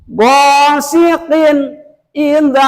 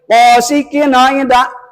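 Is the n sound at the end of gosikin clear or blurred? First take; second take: clear; blurred. First: The n sound is clearly pronounced. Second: The n sound is not pronounced clearly. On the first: The speaker calls it right. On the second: The speaker calls it wrong.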